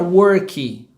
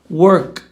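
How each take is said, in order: First: An extra 'ee' vowel follows the final k. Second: The word stops cleanly on the final k. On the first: This is how a Brazilian learner typically says it. The speaker calls it wrong. "é bem comum do brasileiro falar worky" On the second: This is how it is said in English. The speaker calls it right. "ela termina realmente na consoante"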